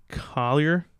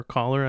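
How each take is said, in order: First: Collier said with an ee-er ending; "Collier" ending like "yer"; unsure pronunciation. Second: "Collar" said like a shirt collar; "Collar" in two plain syllables; alternative pronunciation. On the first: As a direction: say "Collier" as a tentative first guess at the name. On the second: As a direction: offer "Collar" as the other guess, without the ee sound. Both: Real, not acted. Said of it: "never know how to pronounce".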